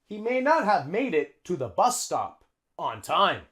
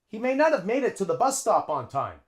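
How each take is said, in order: First: The words are said separately and carefully. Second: The words run together with linked sounds.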